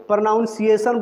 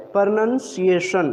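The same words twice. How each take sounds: First: प्रोनाउंसिएशन said with "naun", the wrong way; wrong pronunciation demo. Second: प्रोनंसिएशन said with "nun", slowly and clearly; right pronunciation. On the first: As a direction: show the mistaken प्रोनाउंसिएशन with a "naun" sound. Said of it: "जो कि ये भी गलत है". ("प्रोनाउंसिएशन" गलत उच्चारण, "नाउन" के साथ) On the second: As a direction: model the correct प्रोनंसिएशन without "naun". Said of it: "इसका सही प्रोनंसिएशन". (सही उच्चारण "प्रोनंसिएशन", धीरे और साफ़) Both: Shown as a demonstration.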